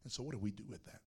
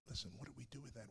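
First: Said in the usual way. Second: Softer, drawing them in; hushed, close question to the congregation; softer repeat. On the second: Shown as a demonstration. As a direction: lean in and ask it softer.

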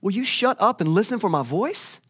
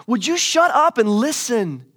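First: Higher-pitched, fed-up question, rising at the end; mock exasperated God, not yet shouting. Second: High, loud and drawn out; slow, hammered-out mock yell for attention; acted outburst at the end of patience; exasperated shout. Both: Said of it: "He's like".

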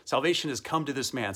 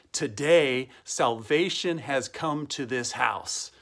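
First: Said in the usual way. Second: Slow, spaced-out declaration; solemn proclamation. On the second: Acted. Pastor quotes Jesus to Zacchaeus, slow solemn proclamation. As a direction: proclaim it deliberately, word by word.

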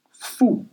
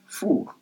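First: "fou" as Creole 'foo', no final r; Creole pronunciation. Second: "four" as French 'foor'; French pronunciation. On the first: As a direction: say "fou" ending on an open oo. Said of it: "In Creole, you say". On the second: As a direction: end "four" on a soft throaty French r. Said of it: "In French". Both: Shown as a demonstration.

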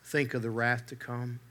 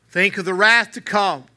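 First: Softer, hushed warning "think of the wrath to come"; quiet plea. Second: Higher, louder cry with "wrath" hit hard; exclaimed warning. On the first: Preacher pleading with his hearers, hushed and soft. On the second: Preacher crying out to his hearers, loud and high. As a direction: ring out the warning from the pulpit. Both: Retold or imitated. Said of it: "he exclaimed".

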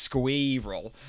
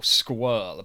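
First: "Squirrel" drawn out into extra syllables. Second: "squirrel" squashed into one syllable, "skwurl". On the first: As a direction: say "Squirrel" as "squee-rul", in separate syllables. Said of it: "Roz's extra syllable in squirrel". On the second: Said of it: "say it with one syllable". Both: Retold or imitated.

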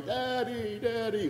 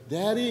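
First: Put-on toddler in the background. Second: Higher, lightly voiced small boy calling Daddy; high-pitched little kid. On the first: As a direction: coo it like a baby far off. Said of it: "one and a half year old in the background going". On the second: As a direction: chirp it like a five-year-old. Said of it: "in this high-pitched ki-, little kid's voice".

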